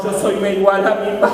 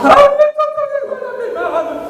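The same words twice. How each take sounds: First: Said in the usual way. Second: High-pitched, mock sobbing wail; imitating sobbing man. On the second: A grown son confessing to the pastor, mock sobbing high. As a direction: let the voice break up high like a crying man. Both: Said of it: "llorando me lo decía".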